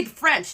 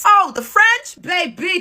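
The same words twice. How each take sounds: First: "the French" said with a falling, dismissive tune; dismissive drop. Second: Much higher, louder, rising scoff; mock disbelief, pitched way up; incredulous exclamation. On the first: Dismissing French commenters, she drops the words scornfully. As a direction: let "the French" fall flat and scornful. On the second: Scoffing at French commenters, an incredulous high exclamation. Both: Real, not acted.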